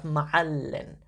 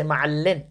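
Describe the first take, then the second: First: Ma'allin drawn out slowly on the stressed middle; stress earlier. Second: Ma'allin with the final "in" punched louder; stress on last vowel. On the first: Teacher contrasting the usual form, ma'allin stressed early. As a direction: slowly lean on the "all" in ma'allin. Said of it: "more of a stress earlier in the word". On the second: Teacher showing the genitive, ma'allin stressed on its last vowel. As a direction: shift the weight onto the end of ma'allin. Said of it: "But in this case, we'll say". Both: Shown as a demonstration.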